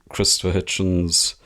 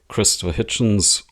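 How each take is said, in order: The two takes are said the same way.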